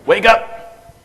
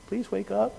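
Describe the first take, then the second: First: Loud, sharp call of "wake up" pitched higher; sergeant wake-up call. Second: Higher, softer mock "Please wake up"; timid polite plea. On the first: Shown as a demonstration. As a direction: bark "wake up" at the patient like a drill sergeant. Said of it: "I drop it down to sergeant level". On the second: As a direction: imitate a meek nurse gently asking. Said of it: "normally speaking to people and going".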